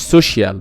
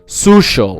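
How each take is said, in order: First: The ending is said as 'shee-al'. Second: The ending is said as 'shal'. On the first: The speaker calls it wrong. "ما بتنطقهاش سوشيال" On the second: The speaker calls it right. "بنطقها social"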